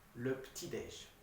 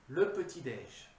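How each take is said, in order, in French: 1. Le E dans 'petit' ne se prononce pas. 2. Le E dans 'petit' se prononce.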